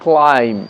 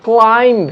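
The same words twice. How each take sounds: First: "ক্লাইম্ব" ending on m, b dropped; silent b. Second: "ক্লাইম্ব" with the final b sounded; wrong pronunciation. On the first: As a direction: say "ক্লাইম্ব" as "clime", low and falling. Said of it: "বি silent আছে, আমরা বলবো". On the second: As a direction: say "ক্লাইম্ব" ending in an audible b. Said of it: "এটা ভুল উচ্চারণ, বি silent আছে". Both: Shown as a demonstration.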